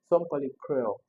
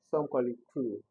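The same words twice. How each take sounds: First: Cruel said with two syllables, cru-el; variant pronunciation of cruel. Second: Cruel said as one syllable, crool; one long oo in cruel; other pronunciation of cruel. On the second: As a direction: run cruel together as crool. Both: Shown as a demonstration.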